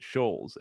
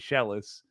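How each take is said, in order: First: The name is said with a long 'oh' vowel. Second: The name is said with two syllables, 'shell-is'. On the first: The speaker calls it wrong. "could mispronounce it Shoals" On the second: The speaker calls it right. "aka Shellis"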